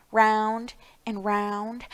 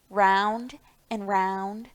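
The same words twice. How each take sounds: The two takes are said the same way.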